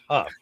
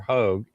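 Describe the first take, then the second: First: The name is said with a short u and final f. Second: The name is said with a long o, like 'hoag'. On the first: The speaker calls it right. "It's Huff" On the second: The speaker calls it wrong. "or Hogue"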